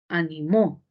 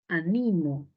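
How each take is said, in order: First: The stress is on the last syllable. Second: The stress is on the second syllable.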